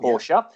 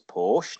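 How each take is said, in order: First: It is said with two syllables, ending in a vowel. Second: It is said with one syllable, no final vowel. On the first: This is how Germans and many fans say it. The speaker calls it wrong. "not Portia" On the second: This is how an English speaker says it. The speaker calls it right. "I've always pronounced as Porsche"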